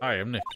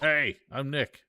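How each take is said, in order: First: It is said quietly. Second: It is said loudly.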